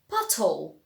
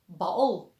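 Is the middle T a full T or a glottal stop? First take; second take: full T; glottal stop. First: The middle T is fully pronounced. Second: The middle T becomes a glottal stop. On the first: "every word is pronounced with the T and emphasized" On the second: "It is pronounced just with a glottal sound"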